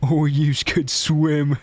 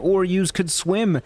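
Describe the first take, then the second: First: It is said in a put-on monster voice. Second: It is said in a normal voice.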